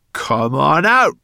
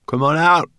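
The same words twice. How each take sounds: First: Slow, loud, high spat command. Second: High, loud call to whoever hides; brownie calling out. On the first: Brownie spitting at the hidden boy, slow and loud. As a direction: spit each word out, losing patience. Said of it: "spat Sorrel again". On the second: Brownie girl calling into the crates, high and loud. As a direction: call them out of hiding, challenging. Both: Acted.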